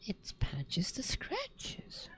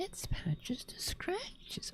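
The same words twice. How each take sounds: First: Hushed whisper. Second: Put-on soft high baby-talk whisper; high cooing whisper. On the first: Pretend. Repeating cat's title, softly. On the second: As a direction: coo it softly up high. Repeating cat's title higher.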